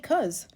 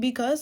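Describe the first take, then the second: First: The first syllable is dropped, one syllable. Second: The word is said in full, two syllables. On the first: "sometimes we just say cuz" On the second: "We don't always be saying because"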